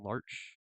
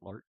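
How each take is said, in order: First: The name ends with a 'ch' sound. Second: The name ends with a 'k' sound. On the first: "I've been saying larch" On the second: "It can also be pronounced lark"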